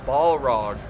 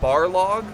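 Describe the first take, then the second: First: The first syllable sounds like 'ball'. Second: The first syllable sounds like 'bar'. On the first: "Just think of a ball and then rog" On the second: "I think I called them Barlog before"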